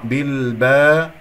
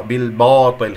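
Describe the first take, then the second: First: بالباطل with a plain open "baa" before heavy ط; light ba. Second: بالباطل with the با darkened by the coming ط; heavy ba. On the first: Teacher giving the corrected word, light ba. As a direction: keep با thin in بالباطل. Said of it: "خطأ، بالباطل". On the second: Teacher imitating some readers' error, heavy ba. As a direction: darken the "baa" of بالباطل as a mistake. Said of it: "خطأ". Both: Shown as a demonstration.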